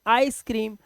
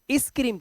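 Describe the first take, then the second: First: आइसक्रीम with an 'eye' sound at the start; teacher corrects to आइसक्रीम, long 'ai' first; correct pronunciation demo. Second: इस क्रीम with short 'i' in the first word; teacher's wrong example, "iss" for ice in इस क्रीम; deliberate misreading. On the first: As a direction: say आइसक्रीम as English "ice cream". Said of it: "इसे बोलते हैं". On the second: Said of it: "तो नहीं बोलते". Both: Shown as a demonstration.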